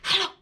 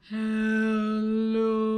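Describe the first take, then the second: First: It is said very fast. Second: It is said very slowly.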